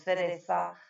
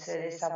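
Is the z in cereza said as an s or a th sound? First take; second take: th; s. First: The z is pronounced as a th sound. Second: The z is pronounced as an s sound.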